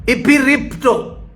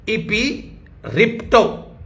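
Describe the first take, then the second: First: इपिरिप्टो raised and said slowly; slow dictation. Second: इपिरिप्टो stretched out further, softer; slower, softer dictation. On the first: Preacher dictating the Greek word, slow. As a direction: pronounce इपिरिप्टो slowly for writing. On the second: Preacher repeating the Greek word slower and softer. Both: Shown as a demonstration. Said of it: "Hindi में लिख लीजिए".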